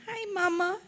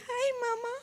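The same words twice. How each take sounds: First: Said in the usual way. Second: Tiny sweet voice, much higher and softer; a daughter imitating her mother's tiny sweet greeting; sweetest little voice. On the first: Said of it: "greeted her with". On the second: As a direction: coo it like a little girl greeting back. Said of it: "she would respond in the sweetest little voice".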